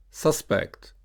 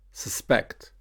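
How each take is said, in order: First: SUSpect, stressed on the first syllable. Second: SusPECT, stressed on the second syllable. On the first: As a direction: say suspect as a noun, SUS-pect. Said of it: "noun will be usually stressed on the first". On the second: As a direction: say suspect as a verb, sus-PECT. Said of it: "verb will be usually stressed on the second". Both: Shown as a demonstration.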